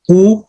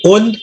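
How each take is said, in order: First: "u" as an open oo, no n; single rafa ending. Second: "Un" closed with an n sound; double rafa ending. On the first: Teacher shows noun endings, "u" as a bare vowel without n. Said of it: "single rafa". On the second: Teacher shows noun endings, "Un" with its n sounded. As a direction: say "Un" as oo plus final n. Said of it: "double rafa". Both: Shown as a demonstration.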